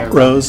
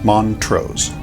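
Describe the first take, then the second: First: The T in the middle is dropped. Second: The T in the middle is clearly pronounced. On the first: The speaker calls it wrong. "they're just being lazy" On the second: The speaker calls it right. "You actually pronounce the T"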